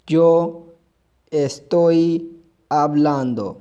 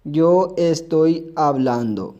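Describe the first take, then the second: First: Said in the usual way. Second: Very slow, carefully articulated yo estoy hablando; slow model sentence. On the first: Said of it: "मैं बोल रहा हूँ". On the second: Shown as a demonstration. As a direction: spell the sentence out slowly for students. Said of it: "A R को हटाकर हमने A N D O".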